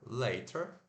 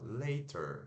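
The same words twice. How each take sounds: First: The middle consonant is a clear t sound. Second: The middle consonant is a quick r-like flap. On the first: "não tá errado, tá certo falar later" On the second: "natural trocar esse T por um R"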